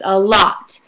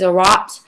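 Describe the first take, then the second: First: The word begins with an L sound. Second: The word begins with an R sound. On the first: The speaker calls it right. "it's a lot" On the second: The speaker calls it wrong. "they mispronounce out L's, like a, a lot is a rot"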